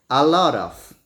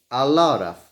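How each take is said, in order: Both takes have the same delivery.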